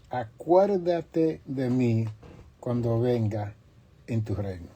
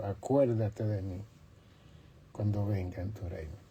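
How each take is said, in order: First: Slow, raised plea that sinks at the end; pleading thief. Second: Much softer, lower, hushed plea. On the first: Thief on the cross begs Jesus to remember him, slow raised plea. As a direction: call out slowly to Jesus, begging. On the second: Repentant thief asks Jesus to remember him, hushed and soft. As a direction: murmur the request humbly. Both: Acted.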